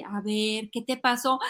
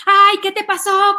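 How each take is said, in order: First: Soft, calm check-in; conscious mom. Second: Loud, high panicked mom act; reactive alarm. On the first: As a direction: gently ask a crying child. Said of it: "una mamá consultora y consciente". (mamá consciente, con calma y suave) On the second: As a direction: overreact like a frantic mother. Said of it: "¿Eres reactivo?". (alarma exagerada de mamá, aguda y fuerte) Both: Acted.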